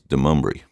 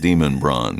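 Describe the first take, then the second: First: The name sounds like 'Demumbrian'. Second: The name sounds like 'Demon Brawn'. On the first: This is how locals say the name. The speaker calls it right. "they refer to as Demumbrian" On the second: This is how the spelling looks. The speaker calls it wrong. "they don't pronounce it anything like that"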